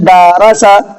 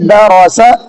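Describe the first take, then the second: First: The first syllable's vowel is drawn out long. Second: All three syllables are kept short and even. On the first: The speaker calls it wrong. "तो दारा सा जब हमने पढ़ा तो दाल खिंच गया।" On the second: The speaker calls it right. "और सही है द रौसा"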